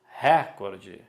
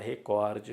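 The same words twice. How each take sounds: First: The stress is on the first syllable. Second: The stress is on the second syllable. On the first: The speaker calls it wrong. "Escutamos muito" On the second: The speaker calls it right. "mas é recorde"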